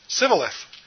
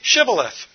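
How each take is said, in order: First: The word begins with a plain s sound. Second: The word begins with a sh sound. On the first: The speaker calls it wrong. "because he couldn't pronounce it right" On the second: The speaker calls it right. "Then say"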